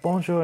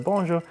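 First: 服务员的法语问候; waiter's bonjour. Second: 回应法语问候; replying bonjour. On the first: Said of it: "They'd be like". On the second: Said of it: "I'd be like". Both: Retold or imitated.

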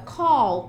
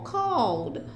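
First: Said in the usual way. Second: Called as one syllable with a small D at the end; just add a short D to called; little D ending. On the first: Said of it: "Você não vai estender mais som". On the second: Shown as a demonstration. Teacher adding no extra sound to the word, called with a little final D. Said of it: "só coloca o Dzinho no final".

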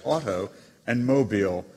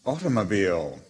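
First: AUTO and MOBILE each given its own stress; two separate words. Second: AUTOMOBILE said as one word, stressed at the front; one main accent. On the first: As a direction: split it into AUTO, then MOBILE. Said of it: "you're really making two words out of it". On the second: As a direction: say AUTOMOBILE as a single falling word. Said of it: "having a primary or strong secondary accent". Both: Acted.

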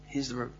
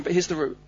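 First: Softer, lower echo of the phrase; soft repeat. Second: Said in the usual way. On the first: Real, not acted. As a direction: let "Here's the route." sink, softer and lower.

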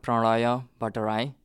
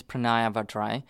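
First: Pranaya Vatrai said the Nepali way, with Vatrai closer to par-tuh-rai; the name Pranaya Vatrai as said back home in Nepal; Nepali pronunciation. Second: Pranaya Vatrai said the simplified American way, with Vatrai as vah-TRY; the easy English version of the name Pranaya Vatrai; anglicized Pranaya Vatrai; Americanized name. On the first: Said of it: "the way it's pronounced in Nepalese is". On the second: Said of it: "simplified name in American version". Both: Shown as a demonstration.

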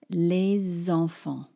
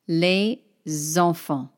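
First: Les enfants joined as lé-zenfants, slow; with liaison. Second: Les enfants said as two blocks, no Z; without liaison. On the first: Teacher modelling the liaison for learners. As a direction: link the S of les onto enfants as a Z. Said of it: "I'm going to use the liaison". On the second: Teacher showing the wrong way without liaison. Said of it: "not les enfants". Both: Shown as a demonstration.

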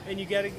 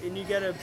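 No difference in how they are said.

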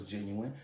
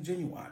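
First: Said in the usual way. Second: "genuine" with its ending said like "wine"; playful mispronunciation. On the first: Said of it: "I know it's genuine". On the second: Shown as a demonstration. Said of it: "but I like seeing genuine".

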